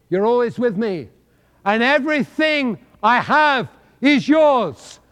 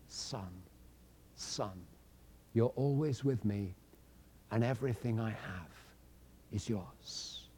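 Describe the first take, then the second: First: Proclaimed promise. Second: Very soft and low, gently spoken; tender father. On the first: Acted. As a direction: announce the promise to the whole room. Father's promise proclaimed loudly. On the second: A narrator's reading. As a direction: speak to the son tenderly, almost under the breath. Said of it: "And in his kindness".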